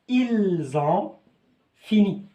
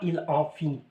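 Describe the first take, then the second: First: The final s links to ont as z. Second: The words are said without the z link. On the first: The speaker calls it right. "Alors je dis ils ont" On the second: The speaker calls it wrong. "On ne dit pas ils ont fini, non, c'est faux"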